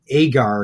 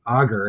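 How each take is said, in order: First: The word is pronounced in a British-sounding way. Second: The word is pronounced in a non-British way. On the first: This is how the speaker always said the word. "I always called it agar, ... and you accused me of being British" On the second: This is the pronunciation the speaker did not use. "not agar"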